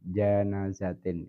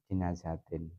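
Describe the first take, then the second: First: The first vowel is an 'a' sound. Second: The first vowel is an 'i' sound. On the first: "dibaca fathah jimnya" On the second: "dibaca kasrah jimnya"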